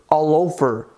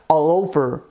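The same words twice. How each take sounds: No difference in how they are said.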